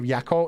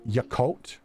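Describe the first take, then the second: First: The syllables are run closely together. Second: The syllables are clearly separated apart. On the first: "instead of Yakult" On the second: "Like a bigger separation?"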